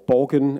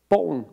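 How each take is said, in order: First: It is said with an English pronunciation. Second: It is said with a Danish pronunciation.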